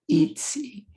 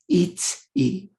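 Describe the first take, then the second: First: The two parts run together quickly without a break. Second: The two parts are said with a break between. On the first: "they're saying it really fast" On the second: "I have them say e separated"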